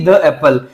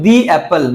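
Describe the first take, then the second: First: 'The' is pronounced like 'thuh'. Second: 'The' is pronounced like 'thee'. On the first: The speaker calls it wrong. "ना कि द Apple" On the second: The speaker calls it right. "ए के साथ में हम लोग बोलेंगे दी Apple"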